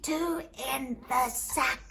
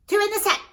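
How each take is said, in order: First: Slow, laboured gasp of a command; barely breathing. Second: High, loud, quick cry; urgent command. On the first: Beaten man ordering cudgels away, barely breathing. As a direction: squeeze the words out with no breath left. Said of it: "All I could do was barely breathe". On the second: Desperate command sending cudgels back, urgent. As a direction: shout the order out in a hurry. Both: Acted.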